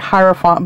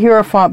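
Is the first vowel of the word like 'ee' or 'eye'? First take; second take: eye; ee. First: The first vowel sounds like 'eye'. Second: The first vowel sounds like 'ee'. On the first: "They say I'm supposed to say Hierophant" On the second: "in Spanish I pronounce the vowels, and in Spanish I is E"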